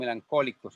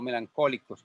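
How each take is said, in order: First: The middle consonant is a 'k' sound. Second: The same.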